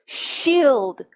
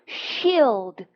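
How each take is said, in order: Both takes have the same delivery.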